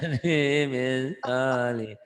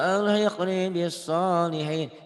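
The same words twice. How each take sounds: First: It is said slowly with drowsy, low energy. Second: It is said quickly with lively energy. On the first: The speaker calls it wrong. "kayak orang yang lagi ngantuk, lagi laper gitu" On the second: The speaker calls it right. "itu beda, eee, apa ya, girohnya, semangatnya beda"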